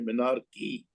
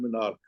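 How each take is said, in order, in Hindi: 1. शब्द के अंत में एक अतिरिक्त ee ध्वनि जुड़ती है। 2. शब्द का अंत k ध्वनि से होता है। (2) "आप सब गलत बोलते हो, मिनार्क, मिनार्क नहीं है"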